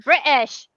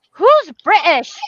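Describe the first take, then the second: First: "British" said loud with a mock posh British sound; mocking British pronunciation. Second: Slow, loud, higher sassy retort; sassy kid quip. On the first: Son mimicking the word "British", mocking and loud. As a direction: sneer the word "British" like a Brit. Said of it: "He didn't say British. He said". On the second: Retold or imitated. Son mocking his mom's word choice, sassy and slow. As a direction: drawl it out like a cheeky kid. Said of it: "He said it just like that".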